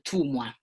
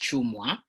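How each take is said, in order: First: The name begins with a plain "t" sound. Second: The name begins with a "ch" sound. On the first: The speaker calls it wrong. "in Italian, if you have to read T W U, it becomes Tumwa" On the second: The speaker calls it right. "my second surname, which is Chumwa"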